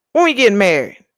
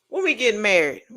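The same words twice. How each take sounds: First: Louder, insistent when we getting married; playful demanding repeat; louder eager repeat. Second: Said in the usual way. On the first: Pretend. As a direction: push the question harder.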